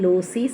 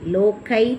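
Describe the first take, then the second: First: The word ends in an ee sound. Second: The middle consonant is a hard k sound. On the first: "லோசி சொல்லக்கூடாது" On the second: "லோக்கை சொல்லக்கூடாது"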